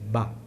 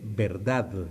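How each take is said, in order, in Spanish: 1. Se dice en una sola sílaba corta. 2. Se dice completa, con la d final. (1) "en algunos extremos" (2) "así, con D final"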